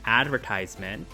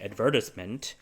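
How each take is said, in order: First: It is said with an American pronunciation. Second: It is said with a British pronunciation.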